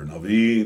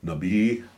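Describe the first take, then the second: First: The middle consonant is a V sound. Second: The middle consonant is a B sound. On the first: "it's more V for the V" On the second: "depending on how you pronounce it"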